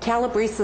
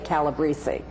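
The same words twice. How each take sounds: First: The final vowel is dropped. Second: The final vowel is clearly sounded. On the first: This is how the family says it down south. "Calabrese is the way we say it" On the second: This is how relatives up north say it. "You've got to have that vowel sound on the end"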